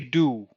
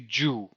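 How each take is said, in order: First: It starts with a plain d, no y glide. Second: It starts with a j sound. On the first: "so I say do"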